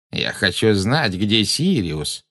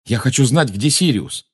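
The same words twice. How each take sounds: First: Slow, drawn-out taunting imitation; mocking mimicry. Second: Said in the usual way. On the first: A narrator's reading. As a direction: stretch the words to mimic and taunt. (передразнивая, нараспев) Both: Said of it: "передразнила его женщина слева".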